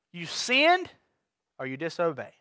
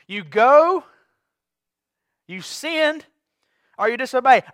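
First: Dropped to a hushed, low "or you disobey"; quiet delivery. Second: "disobey" said again at full voice, no longer hushed; repeated louder. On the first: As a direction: let "disobey" sink soft and low. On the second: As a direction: push the repeat out firmly to wake them. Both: Shown as a demonstration. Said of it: "Ooh, got quiet".

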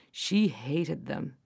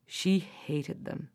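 First: She hated them, slow and low with weight on she; repeated for effect, slower and heavier; slow heavy stress. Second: She hated them, softer and slower, weight on she; slower, heavier repeat. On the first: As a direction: lean hard on she, drawn out. Narrator stresses witch's hatred. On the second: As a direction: let it fall heavily on she. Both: A narrator's reading.

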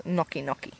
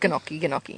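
First: "gnocchi" as NOK-ee, no G; silent-G gnocchi. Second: "gnocchi" with a spoken G, guh-NOK-ee; hard-G gnocchi. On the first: Correcting the door joke, "gnocchi" said softly as NOK-ee. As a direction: drop the G in "gnocchi", starting on N. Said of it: "It's not gnocchi". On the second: Explaining a failed door joke, "gnocchi" said guh-NOK-ee. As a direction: sound the silent G in "gnocchi" as guh-nocky. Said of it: "you've got a G in the front of it". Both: Shown as a demonstration.

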